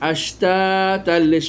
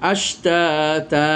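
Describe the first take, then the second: First: The word runs straight into the next word. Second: The word ends and the voice stops. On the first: "আর না থামলে" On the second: "এখানে আপনি থেমে যেতে পারেন"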